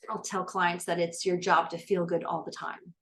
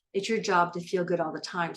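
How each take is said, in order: First: Job as the single strongest beat, the rest level; stress on job. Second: Your pressed hardest, job lighter after it; stress on your. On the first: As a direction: lean on job and keep the other words even. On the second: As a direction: put the weight on your, not on job. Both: Shown as a demonstration.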